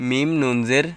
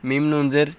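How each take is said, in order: The two takes are said the same way.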